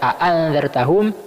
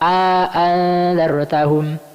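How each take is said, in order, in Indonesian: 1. Kedua hamzah diucapkan tanpa vokal di antaranya. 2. Vokal panjang disisipkan di antara kedua hamzah. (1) "dibaca tahqiq hamzanya" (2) "diidkhal alif"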